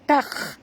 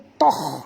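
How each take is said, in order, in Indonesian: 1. Huruf pertama terdengar ringan dan tipis. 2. Huruf pertama terdengar berat dan tebal. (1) "huruf ta ni adalah huruf ringan" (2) "jangan baca toh"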